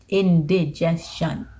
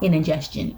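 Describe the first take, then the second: First: The word is said slowly and carefully. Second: The word is said quickly and slurred. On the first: The speaker calls it right. "If I say it slow enough, I say it correctly" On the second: The speaker calls it wrong. "But if I say it fast, I'm like"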